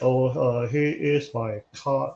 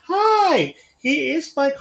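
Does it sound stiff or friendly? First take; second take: stiff; friendly. First: It sounds stiff and hesitant, like a robot. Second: It sounds warm, natural and friendly.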